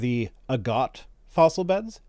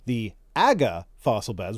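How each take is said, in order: First: The t at the end of Agate is pronounced. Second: The t at the end of Agate is dropped.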